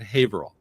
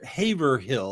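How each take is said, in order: First: It is said the way local residents say it. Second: It is said the way outsiders say it. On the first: The speaker lives in the town. "a lot of people that live there call it Haverhill" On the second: The speaker is not from the town. "A lot of people think that's how it's pronounced"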